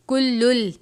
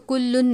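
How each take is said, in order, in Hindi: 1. यह शब्द दोहरे l की आवाज़ से खत्म होता है। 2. यह शब्द n की आवाज़ से खत्म होता है। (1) "इस लाम को लाम मुशद्दद से मिला देंगे" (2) "हम इसको कुल्लुन नहीं पढ़ेंगे"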